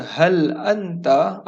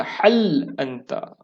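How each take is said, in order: First: HAL drawn out with a light h, pitched up; correct HAL for a question. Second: HAL with a heavy, throaty h instead of a light h; mistaken HAL. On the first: Teacher models asking someone a question, correct HAL. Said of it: "jadi nak tanya orang". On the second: Teacher warns not to ask it so, mistaken heavy HAL. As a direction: stretch "Hal anta" with a raspy pharyngeal h, falling. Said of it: "Jangan tanya". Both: Shown as a demonstration.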